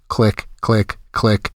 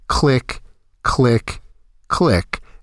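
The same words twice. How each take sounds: First: The clicks are said at a normal, quicker pace. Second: The clicks are said slowly, spaced far apart.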